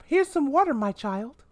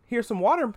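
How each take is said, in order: First: Exaggerated mom voice. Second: Sweetly offering, pitched up; a mother's sing-song offer; mom voice. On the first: Mom insisting her son take water, pitched way up. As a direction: push the offer way up into mock sweetness. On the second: Retold or imitated. Mom offering water to her son at breakfast, sweetly.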